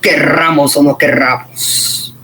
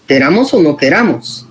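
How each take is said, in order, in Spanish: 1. La r del medio es un trino largo y vibrado. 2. La r del medio es un toque corto y simple. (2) "Entonces es queramos o no"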